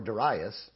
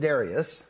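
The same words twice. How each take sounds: First: Darius said as duh-RYE-us, stressed on RYE; duh-RYE-us pronunciation. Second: Darius said as DAIR-ee-us, stress up front; DAIR-ee-us pronunciation. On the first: Preacher offering the other reading to the congregation, Darius as duh-RYE-us. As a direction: say Darius with a long "eye" in the middle. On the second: Preacher reading the king's name to the congregation, Darius as DAIR-ee-us. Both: Shown as a demonstration. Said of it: "How do you like to pronounce that".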